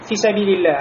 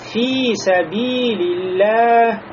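First: The vowel in 'fi' is short. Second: The vowel in 'fi' is drawn out long. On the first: This is ordinary everyday speech. The speaker calls it wrong. "не просто говорим фи сабилилля" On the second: This is Quran recitation. The speaker calls it right. "а говорится фи сабилилля при чтении Кур'ана"

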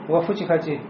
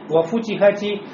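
First: It is said quickly and the u loses its rounding. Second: It is said carefully with clearly rounded lips on u. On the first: The speaker calls it wrong. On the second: The speaker calls it right.

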